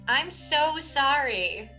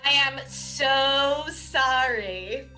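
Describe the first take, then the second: First: It is said casually, without much sincerity. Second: It is said with more sincerity.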